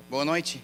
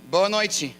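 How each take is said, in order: First: Said in the usual way. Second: Louder, higher eager Portuguese greeting. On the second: Retold or imitated. Excited visitor greeting girls on the street, eager greeting.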